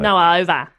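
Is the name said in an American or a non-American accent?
non-American. It is said in a non-American accent. "In our accent, it sort of sounds like... Noah Over. It's really silly"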